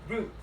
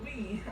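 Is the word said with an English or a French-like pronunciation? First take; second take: English; French-like. First: The word is said with an English pronunciation. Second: The word is said with a French-like pronunciation. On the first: The speaker calls it right. "until I learned it's brute" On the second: The speaker calls it wrong. "I used to pronounce it as bruit"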